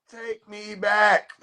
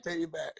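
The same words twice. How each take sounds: First: Drawn-out plea. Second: "Take me back." trailing off much softer, almost gone; fading plea. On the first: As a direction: stretch "Take me back." out slowly, higher and pleading. Pleading take, drawn out. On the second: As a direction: let it die out at the end. Final take, fading away. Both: Pretend.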